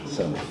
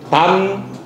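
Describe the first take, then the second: First: The syllable is pronounced seon. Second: The syllable is pronounced dan. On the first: It is part of a place name. "지명일 때는 선입니다" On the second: It means single or one. "홑단자이지만은"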